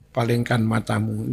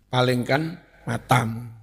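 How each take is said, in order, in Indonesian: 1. Diucapkan dengan intonasi yang biasa saja. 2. Diucapkan dengan intonasi khas daerah Blitar. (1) "nggih biasa" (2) "Cara Blitar"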